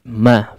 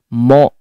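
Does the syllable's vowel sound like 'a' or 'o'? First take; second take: a; o. First: The vowel is open and clear, like 'a'. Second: The vowel is dark and rounded, like 'o'. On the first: The speaker calls it right. "fathahkan dengan sempurna pada huruf mimnya" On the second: The speaker calls it wrong. "jangan sampai kemudian mempengaruhi tipisnya huruf mim ya. Mo, mo ya, enggak"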